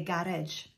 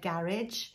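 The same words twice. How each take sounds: First: "garage" said the Welsh way, keeping the J sound at the end; "garage" as a borrowed Welsh word ending in a J sound; Welsh pronunciation. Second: "garage" said the British English way; "garage" in everyday English pronunciation. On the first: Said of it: "Welsh people would say garage". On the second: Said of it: "you'd say it a bit differently". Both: Shown as a demonstration.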